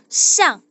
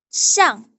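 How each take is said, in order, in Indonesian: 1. Suku katanya diucapkan dengan nada keempat. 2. Suku katanya diucapkan dengan nada keempat.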